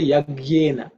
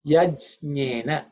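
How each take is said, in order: First: "Yajnena" as yag-yena, with a hard g; common mispronunciation. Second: "Yajnena" as yaj-nyena, the j clearly sounded; careful model "Yajnena" with j, not g; correct Sanskrit pronunciation. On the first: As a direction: swap the j for a g in "Yajnena". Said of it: "those are not accurate". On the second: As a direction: split "Yajnena" after a clear j. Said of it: "is the right pronunciation". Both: Shown as a demonstration.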